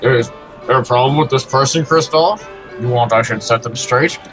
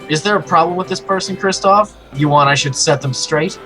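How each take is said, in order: First: It is said in a deeper voice. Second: It is said in a normal voice.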